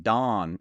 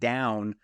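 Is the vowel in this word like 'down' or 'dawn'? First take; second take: dawn; down. First: The vowel is flattened to an 'aw' sound. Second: The vowel is the usual 'ow' sound. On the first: "that's how Pennsylvania Dutch people say" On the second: "pronouncing the word down"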